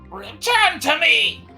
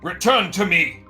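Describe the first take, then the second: First: It is said in a higher put-on voice. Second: It is said in a lower, ordinary voice.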